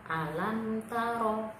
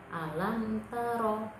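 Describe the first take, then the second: No difference in how they are said.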